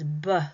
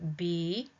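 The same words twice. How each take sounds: First: The consonant is followed by an uh vowel. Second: The consonant is said alone without a vowel. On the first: The speaker calls it wrong. "we might add an extra sound to our word" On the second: The speaker calls it right. "pronouncing the B"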